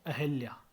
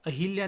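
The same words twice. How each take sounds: First: Said in the usual way. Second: अहिल्या with i in hil; mispronunciation. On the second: Shown as a demonstration. (अहिल्या, ह पर इ) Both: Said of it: "नहीं".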